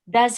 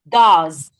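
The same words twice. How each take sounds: First: The vowel is reduced to a weak schwa. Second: The vowel is full and strongly pronounced. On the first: The word is only a helper in a question. The speaker calls it right. "so it is not thick. It's uh, schwa" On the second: The word is the main verb. The speaker calls it wrong. "It's not does"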